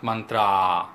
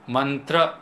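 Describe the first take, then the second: First: The final vowel is long and drawn out. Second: The final vowel is short and clipped. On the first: The speaker calls it wrong. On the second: The speaker calls it right.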